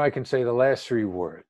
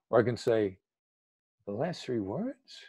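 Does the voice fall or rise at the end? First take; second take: fall; rise. First: The voice falls down at the end. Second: The voice rises curiously at the end. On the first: It lands as discouraging. The speaker calls it wrong. "That's downward inflecting" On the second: It lands as encouraging. The speaker calls it right. "The curious tone of voice, genuine curiosity, inquisitive"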